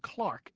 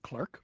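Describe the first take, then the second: First: The vowel is an open 'ah' sound. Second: The vowel is an 'er' sound. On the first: This is the usual British way of saying it. "the British will say very often Clark" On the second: This is the way the word came to America. "instead of clerk"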